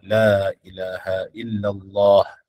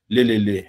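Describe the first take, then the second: First: The phrase is said slowly with every sound clear. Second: The phrase is rushed and slurred into syllables. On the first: The speaker calls it right. "sebut betul-betul la ilaha illallah" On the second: The speaker calls it wrong. "bila dah laju dia akan sebut leleleh"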